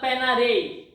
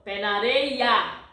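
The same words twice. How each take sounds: First: The final vowel of areia is dropped. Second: The final vowel of areia is clearly pronounced. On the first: The speaker calls it wrong. "It's not" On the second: The speaker calls it right. "So you pronounce this last a"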